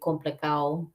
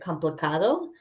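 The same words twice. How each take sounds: First: A consonant in the word is dropped. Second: Every consonant in the word is pronounced. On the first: "but they say complicado" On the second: "they might say the word complicado"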